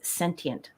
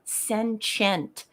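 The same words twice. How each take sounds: First: The middle consonant is a plain t sound. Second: The middle consonant is a ch sound. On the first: The speaker calls it right. "It is sentient" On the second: The speaker calls it wrong. "It is not sentient. There is no C H in sentient"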